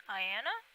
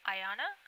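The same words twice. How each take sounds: First: "Ayanna" as eye-ANN-uh, rising like a question; "Ayanna" with middle vowel as in cat, unsure; trying another pronunciation. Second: "Ayanna" as eye-AH-nuh, rising like a question; "Ayanna" with middle vowel as in father, unsure; trying a pronunciation. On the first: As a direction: ask "Ayanna" with a short A in the middle. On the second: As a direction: ask "Ayanna" with an open AH in the middle. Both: Real, not acted. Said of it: "I like to say them correctly".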